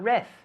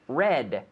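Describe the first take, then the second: First: The word ends in a soft th-like sound. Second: The word ends in a clear, strong D. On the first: The speaker calls it wrong. "Not reth" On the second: The speaker calls it right. "I need to hear that D"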